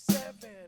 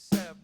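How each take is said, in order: First: Seven is said with two full syllables. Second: Seven is clipped to one syllable, sev. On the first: The speaker calls it wrong. "don't say seven with two syllables" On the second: The speaker calls it right. "you have to say sev"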